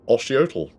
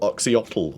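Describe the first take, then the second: First: The name begins with an 'osh' sound. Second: The name begins with an 'ox' sound. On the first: This follows the old pronunciation guide. "I think it should be Oshiotl. ... It would be Osh" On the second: This is what people commonly call him. "Or Oxyotl, or however you want to say it"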